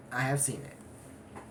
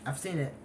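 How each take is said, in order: First: "have" pushed and held, said slowly and a bit softer; stress on have. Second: Said in the usual way. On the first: Real, not acted. Insisting to viewers that "have" it happened, stressed. Repeats claim with emphasis.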